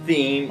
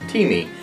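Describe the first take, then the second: First: It sounds like the single syllable theem. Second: It sounds like two syllables, tee-mee. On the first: The speaker calls it wrong. "I was calling it theme" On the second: The speaker calls it right. "it is pronounced T-me, like in a cup of tea and, well, me"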